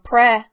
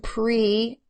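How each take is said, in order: First: The vowel is short, as in 'pret'. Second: The vowel is long, as in 'pre-tend'. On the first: The speaker calls it wrong. "changing the vowel from pre" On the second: The speaker calls it right. "to pre"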